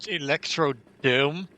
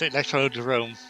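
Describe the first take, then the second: First: The last syllable is said without an r. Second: The last syllable is said with an r. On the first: The speaker calls it wrong. "mispronounce it Electrodome" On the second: The speaker calls it right. "it's Electrodrome because everyone says it like that. It's correct"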